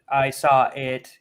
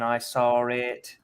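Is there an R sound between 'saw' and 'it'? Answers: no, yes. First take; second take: no; yes. First: The vowel of saw runs straight into it. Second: An R sound links saw to it.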